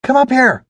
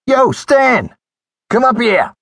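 First: High, urgent call to someone below; raised, impatient calling voice. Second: High, loud holler; carrying shout, pitched way up; calling down the stairs. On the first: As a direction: summon him from below deck, pitched high. Anne calls to Joel below deck. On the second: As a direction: holler through cupped hands to someone below. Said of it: "cupped his hands around his mouth and called". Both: A narrator's reading.

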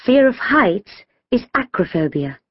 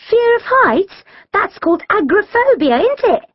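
First: Measured statement, falling at the end; authoritative. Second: Put-on high-pitched, inquisitive girl's voice; questioning. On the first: Gina gives the right phobia name, authoritative. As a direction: state it like an expert. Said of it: "replied authoritatively". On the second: Shirelle checks the phobia's name with friends, questioning. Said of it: "Shirelle asked". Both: A narrator's reading.

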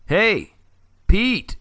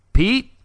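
First: Loud, high shout across the woods; calling shout. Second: High, loud, rising call of Pete?; questioning shout. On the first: Friend calling Pete from a distance, loud shout. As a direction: call out to get his friend's attention. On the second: Friend gets no answer, loud rising call. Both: A narrator's reading. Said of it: "he shouted again".

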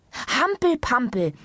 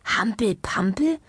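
First: High, drawn-out call. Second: Slow, wondering question with rising end; puzzled. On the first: Doctor ending her list of sports, calling out. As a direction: call out "Hampel-Pampel" slowly as the triumphant last item. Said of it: "rief indessen die Ärztin im Behandlungszimmer". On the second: Patient wondering at the doctor's odd sport, puzzled. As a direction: echo "Hampel-Pampel" in disbelief, lifting the end. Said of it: "dachte Herr Ombovesi verwundert". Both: A narrator's reading.

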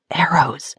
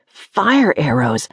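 First: "Arrows." breathed out as a whisper; whispered realisation. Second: "Fire arrows," said slowly, weight on "fire"; slow realisation. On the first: Wren recognising the fire. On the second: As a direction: let the danger sink in. Naming the danger. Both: A narrator's reading.

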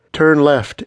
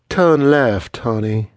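First: Crisp, raised GPS voice; higher, louder navigation prompt; intoning GPS. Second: Put-on GPS voice with a Southern accent; sweet-talking Southern navigation voice. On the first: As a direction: intone it like a phone giving directions. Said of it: "it intoned". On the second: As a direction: give the directions in a Southern accent. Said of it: "give her G P S voice a southern accent". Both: A narrator's reading.

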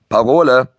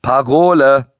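First: Higher, louder call for the password; demanding call. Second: Raised, drawn-out call for the password; louder demand. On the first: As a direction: demand it like a gatekeeper. (fordernd gerufen) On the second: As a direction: demand it loudly, stretching the word. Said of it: "fragte Bruno lauter". (lauter, langgezogen gefordert) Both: A narrator's reading.

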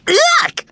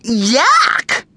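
First: Very high screech of disgust. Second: High cry of disgust. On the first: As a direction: screech it right at the top. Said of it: "screeched Belinda". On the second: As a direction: cry out, grossed out. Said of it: "cried Mandy". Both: A narrator's reading.

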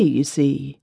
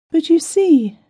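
First: Said in the usual way. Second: High, plaintive complaining voice; a distressed wife pouring out her worries; tearful young wife. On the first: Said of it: "narrator aside". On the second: A narrator's reading.

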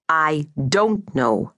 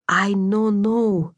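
First: Slow teacherly "don't", set apart; measured correction with "don't" drawn out; correcting stress on don't. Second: Put-on slow, higher Slovak-accented "I no know"; puzzled Slovak girl, words drawn out; Slovak accent, broken English. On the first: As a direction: spell it out slowly, leaning on "don't". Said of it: "Drashka smiled at the correction". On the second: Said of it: "her Slovak accent soft and lilting". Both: A narrator's reading.

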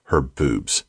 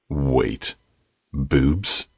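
First: Said in the usual way. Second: Rising, stunned double take; surprised question. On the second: Acted. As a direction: say it in disbelief.

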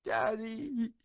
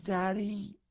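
First: Put-on high child's voice breaking into a sob; a little girl crying for her dad; tearful, pleading "Daddy"; sobbing child. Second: High, earnest "Daddy?" with a questioning lift; a small girl looking up at her dad solemnly; calm, grave child's "Daddy?"; serious child. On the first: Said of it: "she sobbed". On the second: Little daughter asks her father. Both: A narrator's reading.

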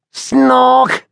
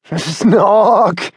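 First: High, louder snorting snore imitation; Henry imitating Billy's snore, a loud snort; mock snore. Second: Snorting snore through laughter; Billy copying Henry's snore while laughing; laughing mock snore. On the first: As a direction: snort like a snarling fisher cat. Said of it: "You sounded like a snarling fisher cat". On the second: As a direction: join in with a giggly snort. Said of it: "Billy joined in".

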